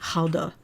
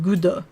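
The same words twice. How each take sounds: First: Gouda is said with a Dutch pronunciation. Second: Gouda is said with a French pronunciation. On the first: "you're supposed to say it's something like Gouda" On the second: "the French way of saying it, which is just reading it like Gouda"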